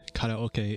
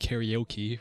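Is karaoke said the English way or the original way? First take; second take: original; English. First: The word has the original, non-English pronunciation. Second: The word has the common English pronunciation. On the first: "we don't say karaoke in, in English" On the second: "We say karaoke, right?"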